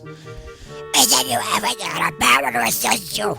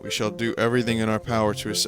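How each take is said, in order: First: It is said in a put-on bird voice. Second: It is said in a plain, non-bird voice.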